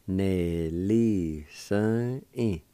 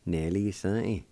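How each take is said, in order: First: Very slow, stretched syllables; slow pronunciation demo. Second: Said in the usual way. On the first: Shown as a demonstration. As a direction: linger on each syllable so learners can follow. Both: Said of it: "it's pronounced like this".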